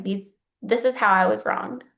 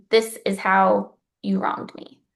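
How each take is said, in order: First: Said in the usual way. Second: Measured, slow courtroom statement; reading out in court. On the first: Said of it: "You don't wanna say it like that. You just wanna say". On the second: Shown as a demonstration. Writer stating a wrong as if in court, measured. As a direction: state it clearly, without emotion. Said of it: "as if you were reading something in court".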